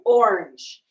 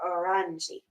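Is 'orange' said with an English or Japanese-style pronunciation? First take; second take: English; Japanese. First: It is said with plain English pronunciation. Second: It is said Japanese-style with an added final vowel. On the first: "He says it like with perfect um, phonetics for the English word" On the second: "that Japanese flair"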